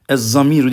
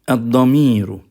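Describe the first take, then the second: First: The word begins with a z sound. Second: The word begins with a d sound. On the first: The speaker calls it wrong. "değil" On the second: The speaker calls it right. "Ama Arapçası damir"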